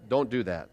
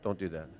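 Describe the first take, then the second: First: Said in the usual way. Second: Softer, murmured repeat of "Don't do that"; preacher drops his voice to repeat "Don't do that" to the congregation; soft aside. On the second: Shown as a demonstration. Quiet aside.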